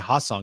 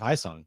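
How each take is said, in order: First: The first syllable has a plain 'ah' vowel. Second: The first syllable has an 'eye' vowel. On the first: The speaker calls it wrong. "I'll mispronounce it and say Ha Sung" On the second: The speaker calls it right. "instead of Hai Sung"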